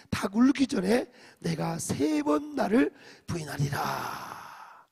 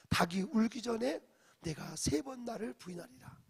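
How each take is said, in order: First: Loud, slow recitation of the verse; loud group scripture reading. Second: Said in the usual way. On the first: Shown as a demonstration. Pastor reads Jesus' warning aloud, loud slow recitation. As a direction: read 닭 울기 전에 out slow and loud to the hall. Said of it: "삼십팔 절 시작". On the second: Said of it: "유명한 말씀이죠".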